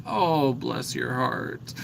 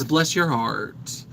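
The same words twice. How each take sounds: First: Soft, slow Southern drawl on "bless your heart"; sweetly Southern, slow and soft; a light Southern "Oh, bless your heart". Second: Southern blessing. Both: Shown as a demonstration. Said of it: "I embrace that sort of Southern".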